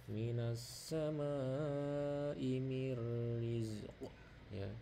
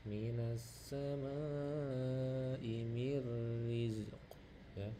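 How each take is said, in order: The two takes are said the same way.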